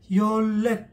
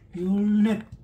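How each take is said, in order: First: The second syllable begins with an l sound. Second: The second syllable begins with an n sound.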